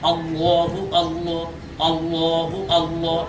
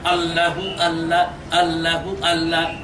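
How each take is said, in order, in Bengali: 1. Allah-এর L ভারী ও মোটা। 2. Allah-এর L হালকা ও পাতলা। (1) "লামটাকে পর বা মোটা করে উচ্চারণ করতে হবে" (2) "এই জিকির শুদ্ধ জিকির নয়"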